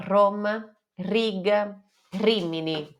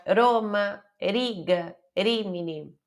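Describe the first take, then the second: First: "Roma, Riga, Rimini" with a full trilled R; rolled R. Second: "Roma, Riga, Rimini" with a light single-tap R, no roll; wrong single tap R. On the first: Teacher shows the R she learned, rolled R. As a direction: roll the R hard in "Roma". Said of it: "eu aprendi a falar". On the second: Teacher imitates her early mistake, single tap R. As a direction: say "Roma" with one quick flick, the beginner's mistake. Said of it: "No começo eu fazia". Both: Shown as a demonstration.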